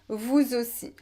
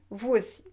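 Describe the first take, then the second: First: The s of vous links as a z sound. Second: The s of vous stays silent before aussi. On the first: It is more formal and sophisticated. "Vous pouvez aussi faire la liaison" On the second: It is how people speak quickly in conversation. "on ne fait pas souvent la liaison. On dit"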